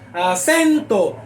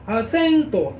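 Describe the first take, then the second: First: The stressed syllable is strong and projected. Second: The stressed syllable is weak and swallowed. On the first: The speaker calls it right. "El acento tiene que proyectarse" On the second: The speaker calls it wrong. "Eso es una mala proyección"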